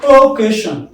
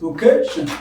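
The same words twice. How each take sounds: First: Occasion punched high and loud on the opening O; OH-casion, first syllable hit hard; wrong first-syllable stress. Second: Occasion with the CA syllable raised; light O, then lift the voice on CA in Occasion; o-CA-sion, middle syllable stressed; stress on second syllable. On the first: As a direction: misplace the stress onto the O of occasion. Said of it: "Not occasion". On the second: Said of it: "raise up your voice from this place". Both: Shown as a demonstration.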